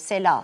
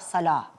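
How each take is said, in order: First: The first vowel sounds like 'e'. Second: The first vowel sounds like 'a'. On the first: The speaker calls it wrong. "Peki sela dediğimiz zaman yanlış mı demiş oluyoruz?" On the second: The speaker calls it right. "Kelimeyi yanlış telaffuz ediyorsunuz. Sala"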